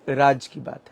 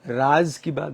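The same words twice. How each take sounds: First: The first word ends with a j sound. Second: The first word ends with a z sound. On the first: It means Raj's own talk. The speaker calls it right. "But ये राज की बात है" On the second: It means the secret talk. The speaker calls it wrong. "बहुत सारे लोग इसे मिस pronounce करते हैं"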